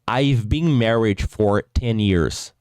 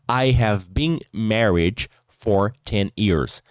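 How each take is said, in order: First: 'I have' is contracted to one syllable. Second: 'I have' is said as two full words. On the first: "essa abreviação que eu fiz" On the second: "sem fazer essa abreviação que eu fiz"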